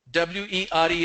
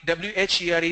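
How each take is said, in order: First: Were as "wuh", central vowel, r silent; pronunciation demo. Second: Where as "wair", open front vowel; pronunciation demo. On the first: Teacher contrasting W E R E with where, saying "wuh". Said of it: "W E R E is were". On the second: Teacher contrasting W H E R E with were, saying "wair". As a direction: say where with an "air" sound, unlike were. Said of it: "W H E R E is where". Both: Shown as a demonstration.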